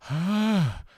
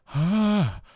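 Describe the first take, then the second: First: A weak, breathy tone with a gap between folds. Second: A weak, breathy tone with a gap between folds.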